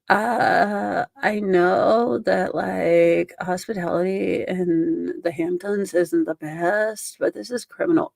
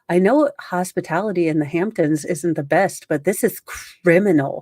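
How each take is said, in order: First: It is said in a mocking, vocal-fry imitation. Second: It is read in a plain, normal voice.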